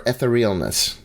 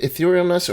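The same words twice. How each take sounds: First: Etherealness as "eh-ther-EE-ul-ness"; alternate pronunciation. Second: Etherealness as "ih-THEER-ee-ul-ness"; long-e opening stress. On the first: Host offers another reading, Etherealness said eh-ther-EE-ul-ness. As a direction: open Etherealness on short "eh", with "ther" in the middle. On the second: Host unsure of the spell's name, Etherealness said ih-THEER-ee-ul-ness. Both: Shown as a demonstration. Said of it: "is it Etherealness or Etherealness".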